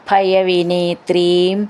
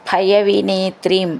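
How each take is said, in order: No difference in how they are said.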